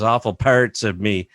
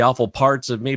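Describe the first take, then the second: First: It is said in a Michigan accent. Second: It is said in a plain, neutral accent. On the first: This is how the other person actually said it. "but it was awful parts of me" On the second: This is how the listener expected it to sound. "I thought you were going to say the awful parts of me"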